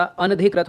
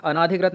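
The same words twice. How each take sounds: First: अनधिकृत as an-adhikrit, short vowel; correct pronunciation. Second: अनाधिकृत with long "naa"; wrong pronunciation. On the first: Teacher correcting the word, अनधिकृत without long "naa". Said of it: "अनधिकृत होता है". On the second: Teacher showing the error, अनाधिकृत with long "naa". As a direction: lengthen the second vowel of अनाधिकृत. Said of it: "अनाधिकृत नहीं होता". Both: Shown as a demonstration.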